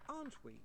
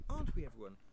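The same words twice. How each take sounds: First: High, pointed repeated demand; lady glaring at dwarfs until they agree; insistent. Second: Said in the usual way. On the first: A narrator's reading. Pressing again, sharper.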